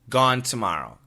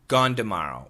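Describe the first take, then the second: First: Tomorrow starts with a clear T sound. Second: Tomorrow starts with a D sound. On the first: "Number one, gone t t t" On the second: "With the D sound. Gone d"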